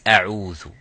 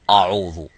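First: The opening hamza sounds light and thin. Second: The opening hamza sounds heavy and thick. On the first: The speaker calls it right. "It's أعوذ" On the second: The speaker calls it wrong. "not to say أعوذ"

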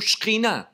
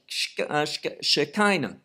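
First: It is said with Hebrew pronunciation and stress. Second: It is said with English pronunciation and stress. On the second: "English, we say Shekinah"

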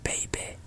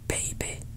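First: Said in a conservative RP accent. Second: Said in a posh RP accent, short final vowel. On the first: "Conservative RP" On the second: "Posh RP accent"

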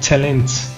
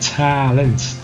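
First: The first vowel is said with a closed mouth. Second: The first vowel is said with an open mouth. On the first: The speaker calls it wrong. "not talent" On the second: The speaker calls it right. "Open your mouth all the time"

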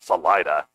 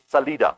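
First: The word is pronounced the anglicized way. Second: The word is pronounced the Spanish way. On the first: The speaker calls it wrong. "and not Salida" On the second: The speaker calls it right. "It's Salida, my friend. It means exit"

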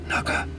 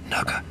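Both takes have the same delivery.

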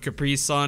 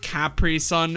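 First: It is said with an American pronunciation. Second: It is said with a British pronunciation. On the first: "instead of Capri Sun" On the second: "they say Capri Sun"

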